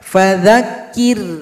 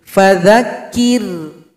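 Both takes have the same delivery.

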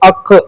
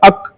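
First: The final q is released with a clear bounce. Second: The final q stops flat without a bounce. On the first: The speaker calls it right. "അത് അങ്ങനെ തന്നെ വായിക്കണം" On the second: The speaker calls it wrong. "അങ്ങനെ വായിച്ചാൽ പോരാ"

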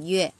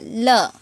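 First: The syllable is read as yue. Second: The syllable is read as le. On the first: The word relates to sound or music. "có chữ nào mà có liên quan tới âm thanh thì nó đọc là" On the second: The word relates to inner feelings. "Chữ này sẽ đọc là lơ"

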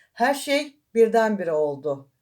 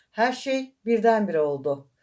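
No difference in how they are said.

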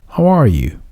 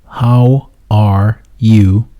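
First: The words run together like one word. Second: Each word is said separately and distinctly. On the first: "Sanki bir kelimeymiş gibi" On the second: "How are you demiyor konuşmacı"

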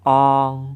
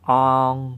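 The two takes are said the same way.

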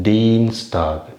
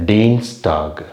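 The two takes are said the same way.

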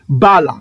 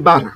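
First: The word ends with an L sound. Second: The word ends with an R sound. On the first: This is the paleo-Hebrew pronunciation. "On va prononcer bal. Parce que le R a le son du L" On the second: This is the modern Hebrew pronunciation. "dans l'hébreu moderne, on va prononcer Bar"

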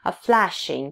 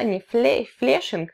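First: The first vowel sounds like in cat. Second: The first vowel sounds like in get. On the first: The speaker calls it right. "там лягушка, cat" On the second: The speaker calls it wrong. "это не flashing"

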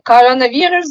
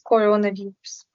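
First: The unstressed o sounds are pronounced like a. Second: The unstressed o sounds are pronounced as clear o. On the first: The speaker calls it wrong. "І наш улюблений коронавірус" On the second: The speaker calls it right. "замість коронавірус"

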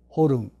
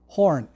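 First: It is said with an added Japanese 'ru' syllable. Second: It is said as a single English syllable. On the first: "ルがあります、日本語で。" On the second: "英語の角。"

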